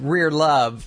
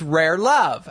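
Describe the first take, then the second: First: "Rear Love", first word rhyming with "steer"; "Rear" with an ee vowel. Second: "Rare Love", open eh rather than ee in the first word; "Rare" with an eh vowel. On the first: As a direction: say "Rear" as in the back end, before "Love". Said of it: "my shirt that said". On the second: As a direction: say "Rare" to rhyme with "care", before "Love". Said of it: "not rare". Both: Retold or imitated.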